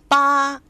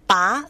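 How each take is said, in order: First: The pitch stays high and level. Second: The pitch rises from mid to high. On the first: It means eight. "ba means eight, first tone" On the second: It means poor. "and second tone, ba means poor"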